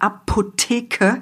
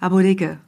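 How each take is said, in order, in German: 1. Die Konsonanten sind klar und stark artikuliert. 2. Die Konsonanten sind locker und fast genuschelt. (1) "das kann man sehr spannungsreich sprechen" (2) "oder man kann es so Apotheke, ein bisschen weg, fast nuscheln"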